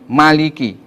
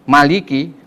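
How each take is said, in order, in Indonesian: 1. Vokal setelah m dibaca pendek. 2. Vokal setelah m dibaca pendek.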